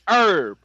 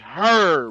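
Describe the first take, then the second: First: It is said with an American accent. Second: It is said with a British accent.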